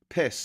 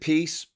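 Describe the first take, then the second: First: The word sounds like 'piss'. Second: The word sounds like 'peace'. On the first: The party name is used as a mocking joke. "I like to call it the piss party" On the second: This is how the party itself says its name. "They pronounce it peace"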